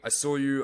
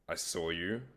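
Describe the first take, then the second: First: The phrase is spoken quickly and rushed. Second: The phrase is spoken slowly and calmly. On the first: The listener has not yet noticed the speaker. The speaker calls it wrong. "a lot of guys, when they first walk up, they're like" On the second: The listener has time to take it in. The speaker calls it right. "and then slow"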